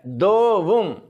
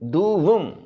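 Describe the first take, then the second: First: The first vowel is an o sound. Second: The first vowel is an u sound. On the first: The speaker calls it wrong. "ये गलत है" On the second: The speaker calls it right. "ये दू है, जैसे दूध में दू बोलते हैं"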